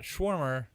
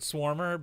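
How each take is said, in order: First: The name begins with a 'sh' sound. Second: The name begins with an 's' sound. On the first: The speaker calls it wrong. "not Schwarmer" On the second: The speaker calls it right. "but Swarmer"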